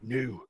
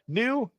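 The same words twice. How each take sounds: First: It is said in a gruff orc voice. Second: It is said in a normal voice.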